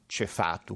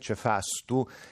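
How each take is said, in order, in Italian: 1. La vocale centrale è a, senza s. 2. La vocale centrale è a, con una s. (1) "diciamo cefatu, quindi togliamo la S" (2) "salendo verso per esempio nord si dice cefastu"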